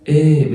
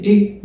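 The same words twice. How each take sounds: First: إيه stretched into a long open "eh"; lengthened è. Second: إيه as an everyday short "ay", pitched high; ordinary short é. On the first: Teacher explaining the left-leaning accent, lengthened è. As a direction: hold the vowel of إيه long. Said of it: "بتمد فيها". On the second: Teacher explaining the right-leaning accent, ordinary short é. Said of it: "إيه عادية". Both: Shown as a demonstration.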